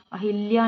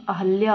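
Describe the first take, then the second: First: अहिल्या with "hil" in the middle; wrong pronunciation. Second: अहल्या with "hal" in the middle; correct pronunciation. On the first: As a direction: say अहिल्या with short i after h. (अहिल्या में "हि" बोलें) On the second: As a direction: say अहल्या with a after h, no i. (अहल्या में "ह" बिना इ के बोलें) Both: Shown as a demonstration. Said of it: "अहल्या होता है".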